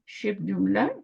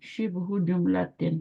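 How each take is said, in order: First: Both words end without any vowel endings. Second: Both words end with added vowel endings. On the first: The speaker calls it right. "दोनों को साकिन करें" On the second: The speaker calls it wrong. "आप इस तरह बोलते हैं ना"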